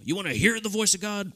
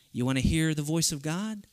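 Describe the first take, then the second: First: "You wanna hear the voice of God?" pitched higher in a lightly hammed-up preacher voice; put-on pastor voice. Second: Said in the usual way. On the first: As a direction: play a stock pastor asking the crowd. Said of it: "he doesn't sound like that". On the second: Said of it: "I don't know why I say, he doesn't sound like that".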